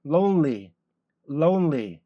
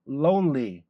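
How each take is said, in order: First: Lonely with n and l both clear; correct English lonely. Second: Lonely with the n swallowed into l; wrong Korean-style lonely. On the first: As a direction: say lonely keeping the n before the l. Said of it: "lonely 이렇게 되지". (n과 l을 모두 살린 정확한 lonely) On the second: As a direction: blur the n into l in lonely. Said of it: "lonely 이렇게 되지는 않단". (n을 l로 바꾼 한국식 lonely) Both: Shown as a demonstration.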